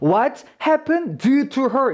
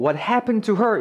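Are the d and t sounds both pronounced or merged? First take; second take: both pronounced; merged. First: The d and t are both clearly pronounced. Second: The d drops and only the t remains. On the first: "이라고 읽지 않고" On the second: "이라고 그냥 말을 하는 거"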